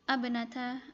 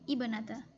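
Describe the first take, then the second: First: The word begins with an 'a' vowel. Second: The word begins with an 'i' vowel. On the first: The speaker calls it wrong. "bukan abnata" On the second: The speaker calls it right. "tapi ibnata"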